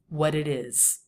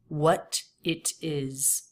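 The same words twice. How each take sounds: First: The T sounds are soft, quick flaps. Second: The T sounds are crisp and fully released. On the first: It sounds natural and conversational. The speaker calls it right. "would make those flaps" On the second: It sounds robotic and unnatural. The speaker calls it wrong. "These two true T's, they make it sound robotic"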